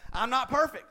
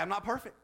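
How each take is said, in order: First: Laughing, louder and higher. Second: Said in the usual way. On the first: Shown as a demonstration. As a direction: laugh through the line.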